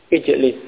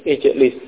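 No difference in how they are said.

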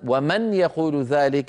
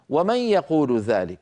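First: The n is clearly pronounced before the y. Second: The n merges directly into the following y. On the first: Arabs never spoke this way. The speaker calls it wrong. "بنون مظهرة" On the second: This is how Arabs spoke in everyday speech. The speaker calls it right. "فيقولون"

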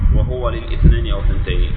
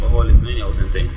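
First: Voweled h, hamza of al-ithnayn clearly pronounced. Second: Silent h, hamza of al-ithnayn elided and linked. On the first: "إذا هو بالضم يكون بقطع الهمزة" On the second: "إذا هو بالتسكين تمام"

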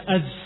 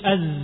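First: The z is said with escaping breath. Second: The z is said with voice, not breath. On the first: The speaker calls it wrong. "zai itu tidak ada hamsnya, jangan dibaca az" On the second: The speaker calls it right. "tapi az, suaranya saja yang mengalir, suaranya bukan nafasnya"

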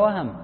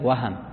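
First: The middle consonant has no vowel after it. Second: The middle consonant is followed by a short a. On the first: The speaker calls it wrong. "بالفتح ولا بالسكون؟" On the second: The speaker calls it right. "نعم بالفتح"

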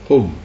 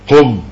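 First: The command sounds soft and kind. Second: The command sounds harsh and stern. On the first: The speaker is making a kind request. The speaker calls it right. "تقولها وأنت تبتسم" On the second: The speaker is giving a rough order. The speaker calls it wrong. "تقولها وأنت تتجهم"

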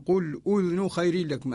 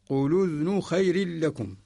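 First: A glottal stop is clearly heard before udhun. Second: No glottal stop; its vowel joins the previous consonant. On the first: "يقرأها قالون" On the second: "يلقي حركة الهمزة على الساكن قبلها"

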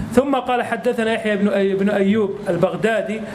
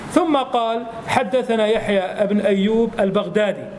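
Both takes have the same delivery.

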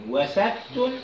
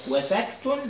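The two takes are said the same way.

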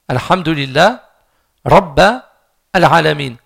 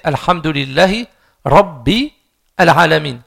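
First: The word rabb ends with an a vowel. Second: The word rabb ends with an i vowel. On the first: The speaker calls it wrong. "il a mis une fatha" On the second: The speaker calls it right. "Normalement c'est Alhamdulillahi rabbi alamin"

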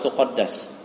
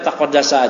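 First: The word ends on a consonant sound. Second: The word ends with a final vowel sound. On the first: The speaker calls it wrong. "enggak usah taqaddas. Boleh aja, tapi lebih mantap itu" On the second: The speaker calls it right. "Dibaca taqaddasa aja"

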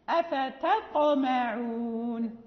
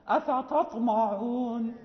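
First: The t sounds light and thin. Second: The t sounds heavy and emphatic. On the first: The speaker calls it right. "لا بد من انسفال وترقيق التاء" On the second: The speaker calls it wrong. "إذا لم نحرص على استفالها وترقيقها كيف ننطقها؟"

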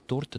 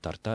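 First: The stress is on the first syllable. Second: The stress is on the second syllable. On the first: The speaker calls it right. "ударение всегда во всех формах сохраняется в одном и том же месте, на корне" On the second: The speaker calls it wrong. "это очень и очень вульгарно"

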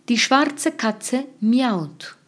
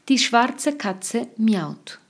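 No difference in how they are said.

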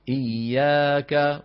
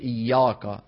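First: The long vowel sounds light and thin. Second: The long vowel sounds heavy and deep. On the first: The speaker calls it right. "وترقق الألف بعد المرقق" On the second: The speaker calls it wrong. "ولا نقول إياك، نعم كما يفعل بعض العجم"

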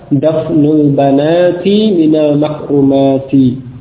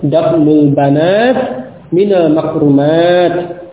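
First: The nouns end with a full 'ati' sound. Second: The nouns end with a clipped 'at' sound. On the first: This is the original form without pausing. "asalnya apa?" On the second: This is the usual pausal form. "kalau waqaf ya, ... dengan ta"

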